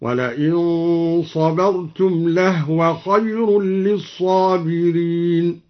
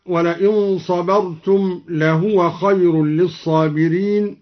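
First: Slow recitation with لهو said "lahwa"; drawn-out tartil, لهو in two syllables, "lah-wa"; silent-vowel ha in لهو. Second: Said in the usual way. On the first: Shown as a demonstration. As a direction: chant slowly, no vowel after the h of لهو. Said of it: "سكن الهاء هكذا".

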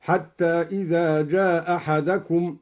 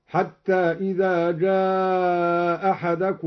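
First: جاء أحدكم with one hamza dropped and a short long-a; short madd. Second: جاء held long on one sustained vowel, single hamza; slow chant with جاء drawn right out; long madd. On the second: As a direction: stretch the aa of جاء far out before أحدكم. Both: Shown as a demonstration. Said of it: "المد والقصر هكذا".

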